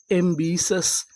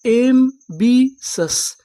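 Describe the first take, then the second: First: Said in the usual way. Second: "एम बी सस" drawn out very slowly, syllable by syllable, a bit louder. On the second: Shown as a demonstration. Teacher sounding out ambitious for students, very slow and split apart. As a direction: stretch each part "एम... बी... सस" so the class hears it. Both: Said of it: "तो meaning क्या बनी?".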